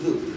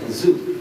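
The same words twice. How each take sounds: First: The tongue is between the teeth, a soft 'th'. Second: The tongue is behind the teeth, a buzzing 'z'. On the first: The speaker calls it right. "Zalnya digigit" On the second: The speaker calls it wrong. "Kalau enggak digigit jadi zai"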